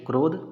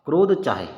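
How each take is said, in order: First: There is a pause right after krodh. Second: There is a pause right after chaahe. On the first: "थोड़ा रुको" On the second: "रुको"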